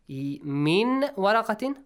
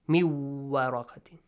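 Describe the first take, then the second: First: The n sound is pronounced clearly before w. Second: The n sound merges into the following w.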